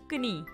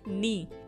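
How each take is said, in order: First: The word starts with a k sound. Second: The word starts with an n sound. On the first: The speaker calls it wrong. "इस तरीके से हमें क्या पढ़ना चाहिए, जैसे कनी" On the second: The speaker calls it right. "लेकिन हम क्या पढ़ते हैं इसे नी"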